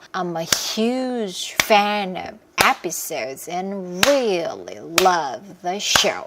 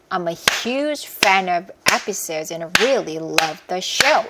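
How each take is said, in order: First: It is said slowly, in a slower rhythm. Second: It is said fast, in a quick rhythm.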